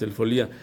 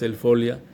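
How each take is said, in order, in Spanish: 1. La sílaba tónica es la segunda, li. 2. La sílaba tónica es la primera, fo. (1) "No tienen por qué decir" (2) "conservando el diptongo"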